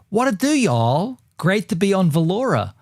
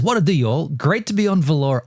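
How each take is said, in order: First: It is read in an Australian accent. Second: It is read in the speaker's ordinary accent. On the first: "do it in an Aussie accent" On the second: "I won't do the accent"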